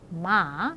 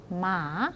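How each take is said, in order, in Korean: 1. 끝에서 음높이가 내려갔다가 살짝 올라갑니다. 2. 끝에서 음높이가 내려갔다가 살짝 올라갑니다.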